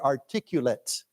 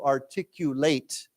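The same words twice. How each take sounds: First: It is pronounced in its adjective form. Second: It is pronounced in its verb form. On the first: It means good at speaking. "But as a 形容词, we say he is very articulate" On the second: It means to express ideas clearly. "we pronounce it as to articulate"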